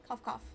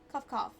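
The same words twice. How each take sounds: First: Saying cough, cough; words cough, cough, said aloud; spoken cough. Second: Cough, cough, said a bit louder; louder spoken cough. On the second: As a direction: say cough, cough, with more force. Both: Acted. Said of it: "spice stuck in my throat".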